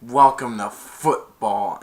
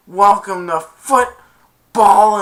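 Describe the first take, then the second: First: Loud, slow, punched words at normal pitch; retold taunt. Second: High, very loud, stretched-out shout; retold payback taunt. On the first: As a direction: sock it to a tackled rookie. Tackler's taunt, later thrown back. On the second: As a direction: throw the taunt back at full volume. Kicker throws taunt back.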